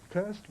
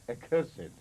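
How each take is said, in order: First: "cursed" in one syllable, KURST; verb pronunciation. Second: "accursed" in three syllables, uh-KUR-sid; adjective pronunciation. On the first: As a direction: say "cursed" ending in -st. ("cursed" with a silent e, as KURST) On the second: ("accursed" with the -ed sounded, uh-KUR-sid) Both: Shown as a demonstration. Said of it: "you understand the difference".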